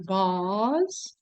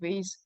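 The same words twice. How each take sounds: First: It is said with a British accent. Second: It is said with an American accent. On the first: "in British English, they say vase" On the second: "but in American, we can say vase"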